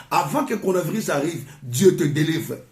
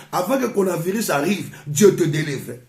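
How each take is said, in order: Both takes have the same delivery.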